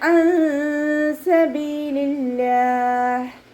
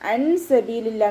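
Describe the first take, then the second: First: The n is hidden in a nasal hum. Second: The n is pronounced clearly and fully. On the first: The speaker calls it right. "നൂൻ സാക്കിനയെ മറച്ചു വെച്ചിട്ട് മണിച്ചോതി കൊടുക്കുക" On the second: The speaker calls it wrong. "എന്ന് ഓതരുത്"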